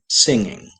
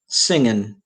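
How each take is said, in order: First: The final g sound is pronounced. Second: The final g sound is dropped. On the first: The speaker calls it right. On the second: The speaker calls it wrong. "don't clip final consonants. Don't say"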